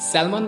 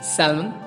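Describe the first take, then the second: First: The L sound is pronounced in the word. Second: The L sound is left silent in the word. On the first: The speaker calls it wrong. "आप इसको क्या पढ़ेंगे" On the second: The speaker calls it right. "It's actually सैल्मन... एल यहाँ पे silent है"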